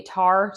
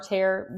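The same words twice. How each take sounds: First: "tar" said as a short open ah, rhyming with car; wrong pronunciation. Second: "tare" said with an air vowel, like tear or where; correct pronunciation. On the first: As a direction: say "tar" with a plain ah vowel, not air. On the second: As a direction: say "tare" to rhyme with care. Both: Shown as a demonstration. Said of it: "Tare, T A".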